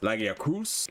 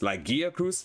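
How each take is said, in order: First: The stress is on the fourth syllable. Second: The stress is on the second syllable.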